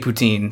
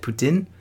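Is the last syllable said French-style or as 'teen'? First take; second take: teen; French-style. First: The last syllable has a long ee sound. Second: The last syllable is said in a French way. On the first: This is how the speaker usually says it. "I always say it with the double E" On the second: Someone else said it this way. "I'm pretty sure he pronounced it poutine"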